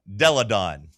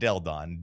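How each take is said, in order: First: There is a vowel between 'Del' and 'don'. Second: There is no vowel between 'Del' and 'don'. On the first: The speaker calls it right. "Della. Deladon" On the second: The speaker calls it wrong. "Not Deldon"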